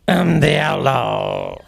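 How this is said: It is said in a Frog Millhouse voice.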